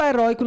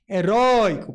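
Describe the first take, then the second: First: Said in the usual way. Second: "Heróico" with RÓI swelling loud and long; teacher's exaggerated stress on RÓI in "Heróico"; stressed second syllable. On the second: Shown as a demonstration. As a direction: stretch and punch the middle syllable of "Heróico". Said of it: "Note que é a segunda sílaba que é mais forte".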